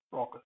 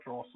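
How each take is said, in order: First: "raucous" as RAW-kus; hard-c raucous. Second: "raucous" as RAW-sus; soft-c raucous. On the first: Teacher modelling the word for learners, "raucous" as RAW-kus. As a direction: hit a k sound in "raucous". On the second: Teacher showing learners a mistake, "raucous" as RAW-sus. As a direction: put an s in place of k in "raucous". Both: Shown as a demonstration. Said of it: "not raucous".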